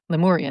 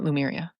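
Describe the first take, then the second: First: The second syllable sounds like 'moor'. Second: The second syllable sounds like 'mer'. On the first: The speaker calls it right. "Lemuria, not Lumeria" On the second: The speaker calls it wrong. "not Lumeria"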